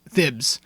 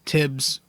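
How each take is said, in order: First: The name begins with a th sound. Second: The name begins with a plain t sound. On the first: The speaker calls it right. "I know it's it's T H, that's how you pronounce it" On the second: The speaker calls it wrong. "I always say Tibbs"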